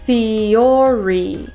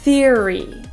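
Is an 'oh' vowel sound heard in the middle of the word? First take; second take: yes; no. First: An 'oh' vowel is sounded in the middle. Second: No 'oh' vowel is sounded in the middle. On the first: The speaker calls it wrong. "we don't want to say theory" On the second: The speaker calls it right. "We want to just say theory. The O sound is not pronounced"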